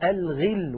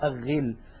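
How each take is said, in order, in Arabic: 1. تُنطق اللام بوضوح قبل الغين. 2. تندمج اللام في صوت غين مشددة. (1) "مثلا" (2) "ولا نقول الغل"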